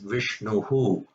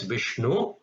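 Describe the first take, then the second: First: The word ends with an added 'hu' echo. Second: The word ends plainly on the u vowel. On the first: "With visarga, it is Vishnuhu" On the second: "Without visarga, it's Vishnu"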